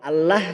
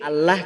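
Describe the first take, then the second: The two takes are said the same way.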